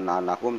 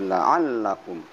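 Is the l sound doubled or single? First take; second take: single; doubled. First: The l sound is short and single. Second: The l sound is held and doubled. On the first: The speaker calls it wrong. "bukan la'allakum" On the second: The speaker calls it right. "ada tasid"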